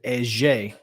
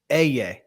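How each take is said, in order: First: The double L is said with a J sound. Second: The double L is said without a J sound. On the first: This is how it is said in South America. "like in South America, they pronounce it eje, like a like a J sound" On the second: This is the form commonly taught in school. "we're always taught"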